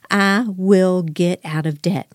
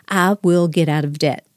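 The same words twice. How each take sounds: First: Slow, deliberate words for the listeners to repeat; slow affirmation to repeat. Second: Said in the usual way. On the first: Shown as a demonstration. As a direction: lead the listeners through it slowly. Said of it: "everybody say it right now". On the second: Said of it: "say it with me right now".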